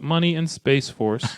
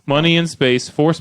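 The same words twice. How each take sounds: First: Space Force is run together as one name. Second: Space and force are phrased as separate words. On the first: It names the military branch. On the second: Money and space push the speaker back to reality.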